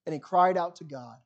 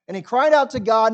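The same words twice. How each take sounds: First: Said in the usual way. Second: Louder repeat, leaning on out; emphatic repeat. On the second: Shown as a demonstration. Preacher repeats the line for weight, louder and emphatic. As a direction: punch the repeat so it rings.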